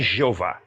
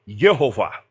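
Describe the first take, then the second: First: The word begins with a zh sound. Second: The word begins with a y sound. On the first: The speaker calls it wrong. "a pronúncia alemão não é Jeová" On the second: The speaker calls it right. "é Yehová"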